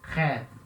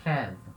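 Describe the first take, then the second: Both takes have the same delivery.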